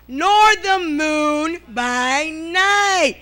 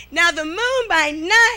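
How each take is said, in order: First: Very slow, drawn-out preaching; preached scripture. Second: Said in the usual way. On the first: Acted. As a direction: stretch every word like a pulpit reading.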